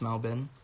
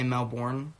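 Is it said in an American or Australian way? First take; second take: Australian; American. First: It is said the Australian way. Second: It is said the American way.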